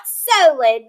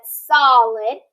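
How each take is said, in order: First: "solid" slowly as SO-lid; long O, like "so", stretched in "solid"; wrong pronunciation. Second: "solid" slowly as SAH-lid, lower; short O, drawn out, in "solid"; correct pronunciation. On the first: Teacher showing pupils the misreading, slow long-O "solid". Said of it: "Not solid". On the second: Teacher correcting the misreading, slow short-O "solid". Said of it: "but solid". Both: Shown as a demonstration.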